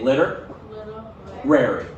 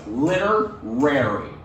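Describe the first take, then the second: First: The word is split into two parts. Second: The word is said smoothly as one piece. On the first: "Say liter, rary" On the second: "And then you put those together"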